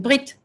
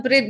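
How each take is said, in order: First: Said in the usual way. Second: "Brit" with an Italian accent, rolled r and open vowel. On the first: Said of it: "I can't believe that I'm saying it with an Italian accent". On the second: Real, not acted. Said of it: "I'm saying it with an Italian accent".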